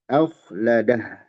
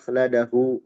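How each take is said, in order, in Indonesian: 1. Kata ini berakhir dengan konsonan 'h'. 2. Kata ini berakhir dengan vokal 'u'. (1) "Tapi akhladah, dia jadi mati" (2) "Kalau berhenti kita tidak baca akhladahu, enggak"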